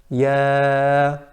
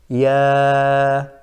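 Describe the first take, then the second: No difference in how they are said.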